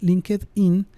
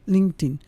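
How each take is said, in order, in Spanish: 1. Se dice con sonidos de estilo español. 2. Se dice con sonidos de estilo inglés. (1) "pronunciando pues cómo se, cómo se escribe" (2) "sería como la pronunciación correcta"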